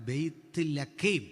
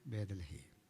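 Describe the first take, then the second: First: It is said as 'bayth lakhem' with a throaty kh. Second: It is said as 'bedalahem' with a d sound. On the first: The speaker calls it right. "ഇതാണ് പറയണ്ടേ" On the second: The speaker calls it wrong. "നമ്മൾ പറഞ്ഞത് എങ്ങനെയാ?"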